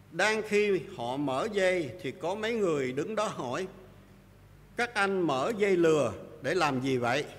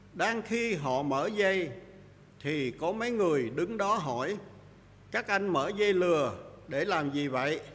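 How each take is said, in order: Both takes have the same delivery.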